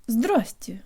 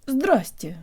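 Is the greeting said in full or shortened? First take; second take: shortened; shortened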